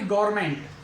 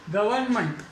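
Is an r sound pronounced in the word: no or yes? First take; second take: yes; no. First: An r sound is pronounced after the first vowel. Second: No r sound is pronounced after the first vowel. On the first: The speaker calls it wrong. "ना कि गवर्नमेंट" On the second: The speaker calls it right. "आर का उच्चारण नहीं होगा"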